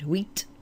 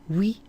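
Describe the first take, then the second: First: The final t sound is pronounced. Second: The final t sound is silent. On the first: "with huit and dix on their own, you you hear the, the end" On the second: "But when followed by a word like matière, you don't"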